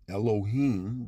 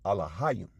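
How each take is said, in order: First: The word begins with 'Eloh' and ends in 'im'. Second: The word begins with 'Alah' and ends in 'ayim'. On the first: The speaker calls it wrong. "we don't have words such as Elohim in the Paleo Hebrew" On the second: The speaker calls it right. "You would pronounce it Alahayim"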